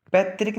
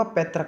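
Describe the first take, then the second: First: पैतृक said "petrik", with an i; "trik" ending. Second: पैतृक said "paitrak", with a short a; "trak" ending. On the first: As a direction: end पैतृक on a clear "rik". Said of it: "नहीं होगा". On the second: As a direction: end पैतृक on "rak", not "rik". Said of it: "होता है". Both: Shown as a demonstration.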